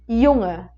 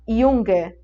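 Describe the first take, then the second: First: The middle consonant is a soft nasal sound. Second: The middle consonant has a hard g sound. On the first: The speaker calls it right. "É como se eu te puxasse mesmo ali para um N H" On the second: The speaker calls it wrong. "A gente não fala Junge"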